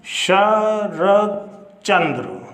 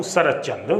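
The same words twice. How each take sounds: First: शरद Chandra drawn out very slowly, syllable by syllable; slow and deliberate teacher dictation. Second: Said in the usual way. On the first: Shown as a demonstration. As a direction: read शरद Chandra out slowly as if writing it on the board. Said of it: "ये मैंने लिखा है". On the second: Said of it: "मान लो मैं और लेता हूँ".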